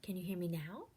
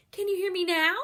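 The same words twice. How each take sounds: First: Softer, hushed question; quiet voice. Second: Higher and louder, almost calling. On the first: Teacher plays with volume, first quietly. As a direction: ask it barely above a whisper. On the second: Teacher plays with volume, ending loud. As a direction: belt it out to the back row. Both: Shown as a demonstration. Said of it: "see if we can have some fun".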